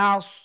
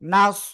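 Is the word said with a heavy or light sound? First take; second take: light; heavy. First: The word is said with a thin, light sound. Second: The word is said with a thick, heavy sound. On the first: The speaker calls it wrong. "নাস এভাবে পড়া যাবে না।" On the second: The speaker calls it right. "একটু মোটা আওয়াজ হবে।"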